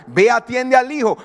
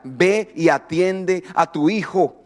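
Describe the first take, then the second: First: Said in the usual way. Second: Slow, lowered, deliberate command; measured command. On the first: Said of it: "y Dios le dice a ella". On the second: Retold or imitated. God telling the mother to tend her son, slowly firm. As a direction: separate each phrase, calm and firm. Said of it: "Y Dios le decía".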